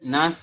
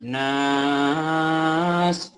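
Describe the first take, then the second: First: The vowel is short, without prolongation. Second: The vowel is drawn out and prolonged. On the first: The speaker calls it wrong. "আগের বার এখানে ভুল হয়েছিল" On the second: The speaker calls it right. "এখানে টান হবে নাস"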